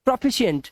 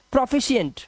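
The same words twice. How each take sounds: The two takes are said the same way.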